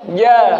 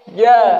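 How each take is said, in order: Both takes have the same delivery.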